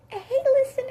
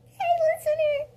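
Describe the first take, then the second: First: Very high, loud squeak; badly pitched high boy voice; squeaky high voice. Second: Very high, loud squeak; botched high-pitched Bruce voice; squeaky high voice. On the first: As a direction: pitch it way up, cartoonish. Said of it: "That was really bad". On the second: Acted. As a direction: squeal it like a little kid. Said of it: "I'm sorry. What was that word?".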